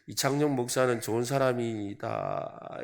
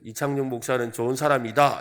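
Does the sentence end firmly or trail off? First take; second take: trailing off; firm. First: The sentence ending trails off vaguely. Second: The sentence ends firmly and clearly. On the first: It is unclear whether it is praise or not. "애매하게 하는, 말끝을 흐리면서" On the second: It is a plain compliment. "이렇게 말하면 되는데"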